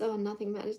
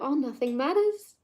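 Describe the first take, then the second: First: It sounds hopeless and defeated. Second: It sounds upbeat and carefree.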